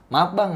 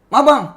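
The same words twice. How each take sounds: First: It is said politely and humbly. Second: It is said rudely and aggressively.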